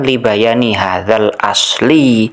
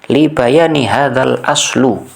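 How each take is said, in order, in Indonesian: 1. Kata terakhir berakhir dengan vokal i. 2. Kata terakhir berakhir dengan vokal u. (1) "di teks saya ini yang saya tampilkan" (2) "kesalahan basic yang sangat-sangat mendasar"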